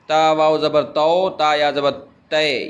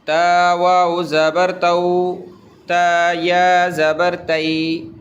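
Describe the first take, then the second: First: تو said as a pure long "o" and تے as a pure long "e"; Urdu-style تو and تے, shown as the mistake; wrong majhool vowels. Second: تو said as "au" and تئی said as "ai"; correct maroof diphthongs. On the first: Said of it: "یہ مجہول کہلاتا ہے". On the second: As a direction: glide تو into "au" and تئی into "ai", as recited. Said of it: "اس کو معروف پڑھیں گے". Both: Shown as a demonstration.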